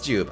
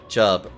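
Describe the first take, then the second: First: The vowel is long, not like 'tub'. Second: The vowel is short, like in 'tub'. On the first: The speaker calls it wrong. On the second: The speaker calls it right.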